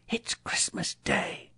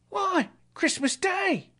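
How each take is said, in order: First: Hushed, slow whisper of wonder; soft awed whisper; said to himself. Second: Put-on very high, drawn-out boyish reply; high boy's voice stating the obvious; street boy. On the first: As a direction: whisper it slowly to yourself. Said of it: "said Scrooge to himself". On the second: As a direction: answer as an amazed lad, slowly. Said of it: "replied the boy". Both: A narrator's reading.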